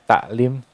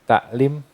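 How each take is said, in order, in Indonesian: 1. Konsonan tengahnya adalah bunyi hamzah yang ringan. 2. Konsonan tengahnya adalah bunyi hamzah yang ringan.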